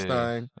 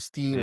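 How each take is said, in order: First: The vowel sounds like the one in 'sign'. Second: The vowel sounds like the one in 'seen'. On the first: "depending on how you pronounce it" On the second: "depending on how you pronounce it"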